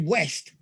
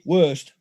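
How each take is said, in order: First: The vowel is short and open, like 'west'. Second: The vowel is rounded and central, like 'worst'. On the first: This is the Yorkshire way of saying it. "Yorkshire be, would be West" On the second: This is the Lancashire way of saying it. "In Lancashire, it would be worst"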